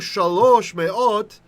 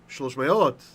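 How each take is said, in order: First: Each word carries its own stress, as two words. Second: One stress joins them, like a single word. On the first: The speaker calls it wrong. "They didn't say" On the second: The speaker calls it right. "like one word"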